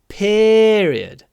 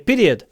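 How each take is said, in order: First: The first syllable is drawn out. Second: The first syllable is short. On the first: The speaker calls it right. "Мы тянем" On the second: The speaker calls it wrong. "Это не period"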